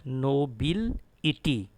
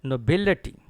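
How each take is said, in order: First: Nobility as slow no-bil-EE-tee; wrong "ity" ending. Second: Nobility as no-BIL-uh-tee, BIL punched loud; correct pronunciation. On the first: Retold or imitated. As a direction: drag out the syllables of nobility with full "ity". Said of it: "Not nobility". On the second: Shown as a demonstration. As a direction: hit BIL in nobility, light "uh-tee" after. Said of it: "It is actually a T".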